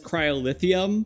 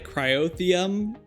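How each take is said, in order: First: The word has five syllables, with an added 'li'. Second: The word has four syllables, without 'li'. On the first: The speaker calls it wrong. "I always said it as cryolithium, but I see how that's wrong" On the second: The speaker calls it right. "I'm saying it properly this time"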